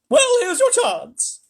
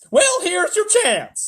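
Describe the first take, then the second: First: It is said in an old woman's voice. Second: It is said in an icy, snarling voice. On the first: The speaker calls it wrong. "Oh, no, I'm doing Grandma Joe's voice" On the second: The speaker calls it right. "snarled Miss Tibbs"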